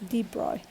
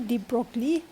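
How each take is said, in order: First: The name is said differently from its spelling. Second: The name is read out following its spelling. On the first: "but we pronounce as" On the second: "kalau ejaan dia macam ni"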